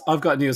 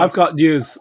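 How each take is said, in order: First: Said in the usual way. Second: Louder, bursting to share news; eager announcement. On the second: Real, not acted. Telling friends his news, eager and loud. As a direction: blurt it out, eager to tell.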